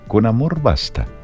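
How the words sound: It is said as a question, rising.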